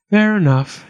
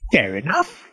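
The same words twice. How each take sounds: First: Higher, reluctant giving-in; lightly sighed resignation; mild sigh. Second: Goblin's questioning lift; lightly voiced goblin question; goblin asking again. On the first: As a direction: agree as if with no choice. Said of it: "he sighed". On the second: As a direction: put the terms to him, expecting a yes. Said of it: "he asked again". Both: A narrator's reading.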